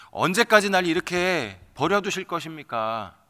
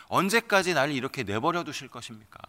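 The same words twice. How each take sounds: First: 언제까지 pushed higher and louder, pleading; louder, higher second plea of 언제까지; anguished cry. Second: Said in the usual way. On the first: Acted. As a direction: repeat it as a rising outcry to God. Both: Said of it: "절규를 하는 것이죠".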